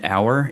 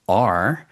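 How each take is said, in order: First: It rhymes with 'flower', as in 'hour'. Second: It sounds like the name of the letter R. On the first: "like hour like like minute hour" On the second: "we often pronounce it R"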